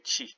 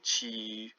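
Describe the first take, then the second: First: The vowel is short and clipped. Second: The vowel is long and drawn out. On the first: The speaker calls it right. "you say chi" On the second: The speaker calls it wrong. "you don't say chi"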